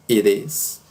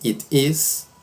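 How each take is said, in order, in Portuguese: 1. O t soa como um R suave. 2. Diz-se com um t claro. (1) "Como se tivesse um R" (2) "temos estas duas formas"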